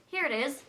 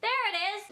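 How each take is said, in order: First: Said in the usual way. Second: High sing-song 'There it is'. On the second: Shown as a demonstration. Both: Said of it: "No, I'm gonna be like".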